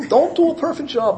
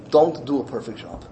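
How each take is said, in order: First: "Don't do a perfect job" raised high, pressing on "do"; insistent repeat. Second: Said in the usual way. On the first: Acted. Rebbe's instruction repeated, insistent.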